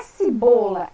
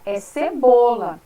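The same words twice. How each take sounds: First: Cibola with i in the first syllable; wrong pronunciation. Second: Cebola with e, stressed and slow; slow, careful cebola with a clear e; correct pronunciation. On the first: Teacher showing the child's error, cibola with i. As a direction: say it the wrong way, ci-bola. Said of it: "não é cibola". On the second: Teacher correcting the word, slow clear cebola. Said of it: "não é cibola, é cebola". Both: Shown as a demonstration.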